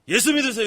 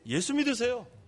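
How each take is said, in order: First: It is said in a harsh, unfriendly tone. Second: It is said in a soft, gentle tone. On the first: The speaker calls it wrong. "이러지 말라요" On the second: The speaker calls it right. "좀 부드럽게"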